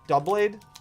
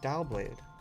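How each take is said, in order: First: The first syllable sounds like the word double. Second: The first syllable sounds like dow, not double. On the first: "It's like double" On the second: "I'm still gonna say Dowblade"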